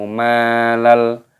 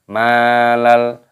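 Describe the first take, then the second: No difference in how they are said.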